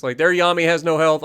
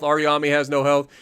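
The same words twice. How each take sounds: First: Their leaned on, rest of line even; stress on their. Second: Our leaned on, a touch lower; stress on our. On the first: To his viewers, contrasting the enemy team: their stressed. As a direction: hit the word their to set teams apart. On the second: To his viewers, contrasting his own team: our stressed. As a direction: hit the word our against their. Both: Shown as a demonstration. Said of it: "their vs our contrast".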